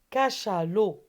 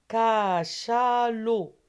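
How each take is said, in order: First: Said in the usual way. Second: Cachalot drawn out slowly and loud, syllable by syllable; slow syllable demo. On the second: Shown as a demonstration. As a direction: stretch Cachalot out slowly for children. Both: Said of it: "Bien sûr, c'est chat".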